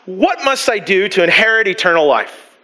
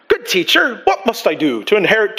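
First: Said in the usual way. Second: Put-on a light, unsure British accent; half-hearted British accent; attempted British accent. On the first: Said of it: "probably not British accent". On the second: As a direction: read it with a touch of British. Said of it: "probably not British accent, sorry".

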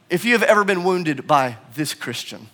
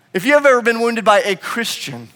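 First: Dropping back down, "this" set apart before "Christian"; subdued confession, weight on "this"; stress on THIS. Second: High-pitched run falling onto "Christian"; preacher's raised, insistent line ending on "Christian"; stress on CHRISTIAN. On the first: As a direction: bring it down and own it on "this". Repeats, turning it on himself. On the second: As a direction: lift the line, land firmly on "Christian". Rhetorical repetition, widened to any Christian. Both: Real, not acted.

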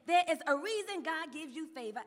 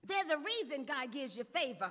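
First: "There is a reason" spelled out firmly, without contracting; emphatic repetition. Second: Said in the usual way. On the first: Shown as a demonstration. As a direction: repeat it with weight on "There is". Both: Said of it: "I wanna say that again".

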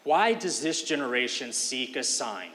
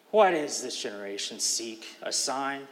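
First: Impatient sarcasm. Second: A heavy breath, then an impatient question; sigh, then ask with frustrated impatience; weary, frustrated reading of Why; impatient, deep breath. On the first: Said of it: "a hint of sarcasm or impatience". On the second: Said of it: "Put that together with a deep breath". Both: Shown as a demonstration.

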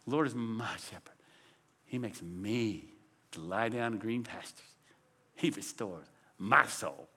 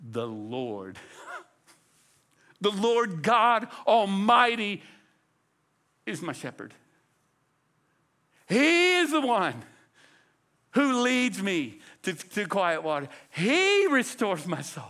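First: Low, soft reading leaning on "my" and "me"; stress on MY and ME. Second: Slow, bragging weight on "Lord" and "He"; "Lord God Almighty" and "He" rung out slowly; stress on LORD and HE. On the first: Preacher shows how we read the Psalm, stress on MY and ME. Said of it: "we read it that way". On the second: Preacher as David bragging on his shepherd, stress on LORD and HE. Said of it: "David would flip the inflection". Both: Shown as a demonstration.

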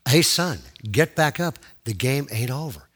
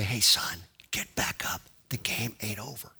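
First: Firm call in full voice, easing at the end; voice a little clearer. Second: Very soft, low, half-whispered call; barely audible, as if just overheard; faint distant voice. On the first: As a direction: urge him up, audibly but calmly. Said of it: "It got a little". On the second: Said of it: "I heard this voice say". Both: Retold or imitated.

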